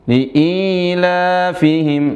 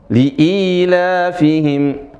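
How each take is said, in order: The two takes are said the same way.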